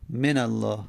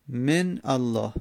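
First: من الله linked as "menallāh"; n with fatha. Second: من الله slow and split, "men... allāh"; two separate words, من / الله; unlinked silent n. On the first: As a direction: run من straight into الله with an a. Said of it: "به من فتحه است". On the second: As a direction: halt on the n of من, then start الله afresh. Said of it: "من نون ساکن". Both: Shown as a demonstration.

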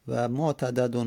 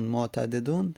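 First: معتددون said motadadun, fatha on the second dal; معتددون with open a before the last dal; fatha form. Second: معتددون said motadedun, kasra on the second dal; معتددون with e before the last dal; kasra form. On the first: Teacher giving the passive participle with fatha in معتددون. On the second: Teacher giving the active participle with kasra in معتددون. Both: Shown as a demonstration. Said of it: "فتحه دادیم اسم مفعول شد، کسره اسم فاعل".

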